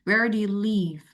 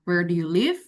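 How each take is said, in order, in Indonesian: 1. Suara turun di akhir. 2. Suara naik di akhir.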